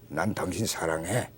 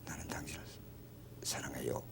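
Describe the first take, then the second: First: It is said curtly, in a flat blunt tone. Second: It is said shyly, almost in a whisper. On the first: "무뚝뚝하게" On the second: "아주 수줍어하면서 속삭이듯"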